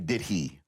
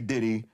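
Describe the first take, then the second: First: The h in 'he' is clearly pronounced. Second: The h is dropped, merging into one word. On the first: The speaker calls it right. "You got to say did he. put that H on it" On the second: The speaker calls it wrong. "You can't say [name]"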